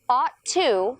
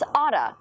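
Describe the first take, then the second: First: The two words are said separately. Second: The two words are linked together.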